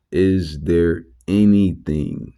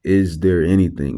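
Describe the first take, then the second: First: Slow, weighty "is there anything" with the stress on "anything"; measured preacher emphasis on "anything"; emphasized. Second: Preacher's hammer stress on "is"; emphasized. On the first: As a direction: lean on "anything" and draw the phrase out slowly. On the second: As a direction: hit "is" hard and fall away on "anything?". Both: Shown as a demonstration. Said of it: "and I'm emphasizing that because that's key".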